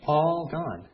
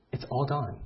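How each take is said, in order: First: "All gone" higher and louder, stretched on "All"; emphatic repeat. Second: Said in the usual way. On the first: Shown as a demonstration. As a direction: lean hard on "All" in "All gone". Repeats for emphasis after a pause.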